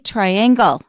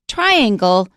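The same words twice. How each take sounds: First: The stress is on the second syllable. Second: The stress is on the first syllable. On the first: The speaker calls it wrong. "a lot of people say triangle, and that's wrong. We don't stress the second syllable" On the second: The speaker calls it right. "we stress the first syllable"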